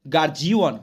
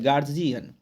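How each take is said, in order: First: गार्जियन with an added w, "gaar-jee-waan"; common mispronunciation of guardian. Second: गार्जियन with a light ending, "gaar-jian"; no w in गार्जियन, short final "an"; correct guardian pronunciation. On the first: Teacher showing how learners say it, mispronounced गार्जियन. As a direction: stretch the end of गार्जियन into "waan". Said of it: "हम लोग बोलते हैं". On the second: Teacher correcting the learners' error, properly pronounced गार्जियन. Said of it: "होता है गार्जियन". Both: Shown as a demonstration.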